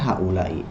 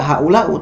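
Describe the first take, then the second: First: The word ends with an 'i' vowel. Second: The word ends with an 'u' vowel. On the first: The speaker calls it right. "hamzahnya kasroh" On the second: The speaker calls it wrong. "Tidak haulau tidak"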